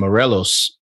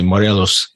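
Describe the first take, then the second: First: Morelos is said with English-style sounds. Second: Morelos is said with Spanish-style sounds. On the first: The speaker calls it wrong. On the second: The speaker calls it right.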